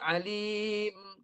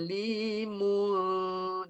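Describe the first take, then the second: First: The word stops short with no nasal ending. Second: The ending is held with a nasal hum. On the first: The reader pauses at the end of the verse. "Berhenti ujung" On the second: The verse runs straight into the next one. "Dengung dua harkat"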